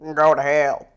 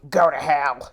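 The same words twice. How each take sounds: First: It is said in the blue man's voice. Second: It is said in Gruff Guy's voice.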